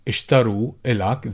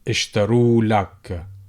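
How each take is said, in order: First: The vowel before 'l' is kept. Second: The vowel before 'l' is dropped.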